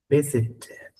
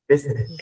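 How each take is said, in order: First: The middle t is a clear t sound. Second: The middle t is a soft r-like flap. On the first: "siempre y cuando sea inglés británico" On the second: "Si es inglés americano, esta T se va a transformar en una R suavita"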